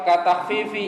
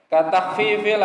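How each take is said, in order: Both takes have the same delivery.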